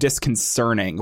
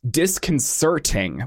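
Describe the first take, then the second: First: The sound before the -ing is an N. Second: The sound before the -ing is a T. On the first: The speaker calls it wrong. "not disconcerting with an N" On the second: The speaker calls it right. "with a T"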